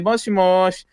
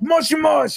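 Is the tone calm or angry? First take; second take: calm; angry. First: It is said in a calm, normal tone. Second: It is said in an angry tone.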